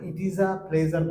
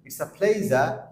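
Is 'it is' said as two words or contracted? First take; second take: two words; contracted. First: It is said as two separate words. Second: It is contracted into one short syllable. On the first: The speaker calls it wrong. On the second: The speaker calls it right.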